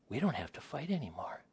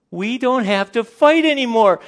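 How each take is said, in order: First: Hushed, whispered mock wonder; soft acted amazement; whispered realisation. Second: High, loud mock-ecstatic cry; over-the-top celebrating couple; overjoyed shout. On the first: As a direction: whisper it as it dawns on you. Couple's dawning realisation, acted. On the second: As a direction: burst out in hammed-up relief.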